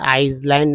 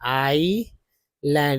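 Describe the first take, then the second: First: The word is said with an s sound. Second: The word is said with no s sound. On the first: The speaker calls it wrong. "आइसलैंड नहीं बोलना" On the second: The speaker calls it right. "इसको silent समझिए"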